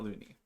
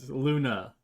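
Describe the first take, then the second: First: The name ends with an 'ee' sound. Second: The name ends with an 'ah' sound. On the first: The speaker calls it wrong. "not Looney" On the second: The speaker calls it right. "Luna, Luna, not Looney"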